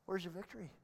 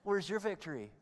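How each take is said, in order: First: It is said in a plain reading tone. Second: It is said in a taunting, mocking tone.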